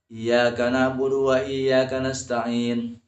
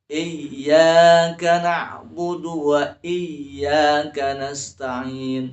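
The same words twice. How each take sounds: First: Iyyaka read lightly with single y; iyyaka without syiddah. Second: Slow, louder chant, doubled y in iyyaka; Iyyaka with syiddah held. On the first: Teacher showing the common hurried mistake, iyyaka with y undoubled. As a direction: run through iyyaka without pressing the y. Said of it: "Jangan dibaca". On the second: Teacher showing correct verse, iyyaka chanted with held y. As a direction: lean long on the y of iyyaka. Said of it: "Itu harus ada". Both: Shown as a demonstration.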